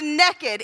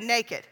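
First: The first vowel is short, as in 'neck'. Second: The first vowel is long, as in 'nay'.

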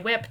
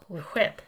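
First: The word starts with a plain 'w' sound. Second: The word starts with a breathy 'hw' sound. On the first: "we say whip, W-I-P" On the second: "does anybody else pronounce the H in that word?"

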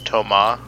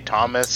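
First: The name is said with French pronunciation. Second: The name is said with English pronunciation. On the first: "going out of his way to say the French pronunciation" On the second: "He doesn't say Thomas"

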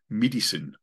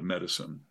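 First: The vowels are closed, South African style. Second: The vowels are open, plain American style. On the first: "They'll say like medicine" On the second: "instead of medicine"

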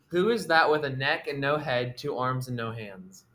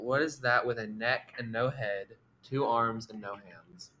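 First: It is said at normal speed. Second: It is said slowly.

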